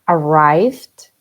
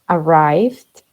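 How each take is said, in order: No difference in how they are said.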